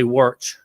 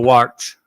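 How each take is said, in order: First: "warch" with an r before the ch, like "wortch"; regional r pronunciation. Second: Said in the usual way. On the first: Shown as a demonstration. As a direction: round the vowel and add an r in "warch". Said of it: "the way I say". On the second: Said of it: "instead of".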